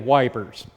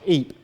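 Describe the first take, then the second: First: It is said as two syllables, 'wipers'. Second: It is said as one syllable, 'eep'. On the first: "The British say wipers" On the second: "This word is pronounced Eep"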